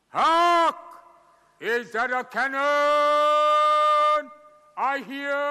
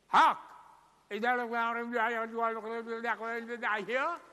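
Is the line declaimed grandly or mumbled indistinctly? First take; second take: declaimed; mumbled. First: It is declaimed grandly and clearly, like classical theatre. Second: It is mumbled so the words are hard to understand. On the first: "in the Shakespearean style" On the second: "I'll do it like Marlon Brando... the mumbling school of acting"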